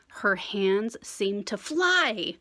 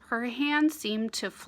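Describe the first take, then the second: First: The words are read with lively, vivid expression. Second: The words are read flatly, without expression. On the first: "I like to say the word how the word sounds or feels. Try it with me" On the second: "if I just read the story without thinking about the lines or punctuation"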